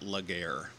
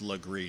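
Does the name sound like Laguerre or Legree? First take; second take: Laguerre; Legree. First: The name sounds like luh-GAIR. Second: The name sounds like luh-GREE. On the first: The speaker calls it wrong. "not Laguerre" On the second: The speaker calls it right. "Legree is pronounced Legree"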